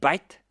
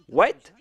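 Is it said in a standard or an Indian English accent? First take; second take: Indian English; standard. First: It is said in an Indian English accent. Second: It is said with a standard W sound.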